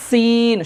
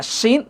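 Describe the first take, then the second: First: সিন with a hard, long s at the teeth; higher, slow, firmly pressed সিন; firm sin. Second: শিন with sh from mid-mouth; shin from inside. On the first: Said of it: "শক্ত করে". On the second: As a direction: say শিন with tongue back off the teeth. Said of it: "মুখের ভিতর থেকে উচ্চারণটা হবে". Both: Shown as a demonstration.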